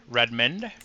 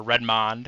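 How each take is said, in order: First: Redmond said with a reduced "-mund" ending; pronunciation variant. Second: Redmond said with a full open "-mond" ending; alternative pronunciation. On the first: Choosing between name versions, Redmond pronounced RED-mund. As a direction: say Redmond as RED-mund, second vowel short. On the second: Offering the other version, Redmond pronounced RED-mahnd. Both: Shown as a demonstration. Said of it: "I don't know how to pronounce it".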